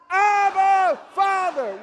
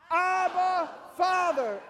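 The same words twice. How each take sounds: First: It is said at a louder volume. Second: It is said at a softer volume.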